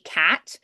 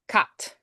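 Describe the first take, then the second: First: The vowel is a flat a sound. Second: The vowel is an open ah sound. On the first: "we would say cat" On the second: "they would do more of an ah, like cut"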